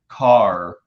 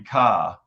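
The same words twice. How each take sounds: First: The final R sound is clearly pronounced. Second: The final R sound is dropped. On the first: This is how people say it locally. "Like here, I'll say car" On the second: This is how people say it in Boston. "In Boston, it'll be car"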